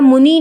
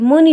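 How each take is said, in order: First: The final vowel is long. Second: The final vowel is short. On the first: The speaker calls it wrong. "मुनि नहीं होता है" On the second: The speaker calls it right. "मुनि होता है"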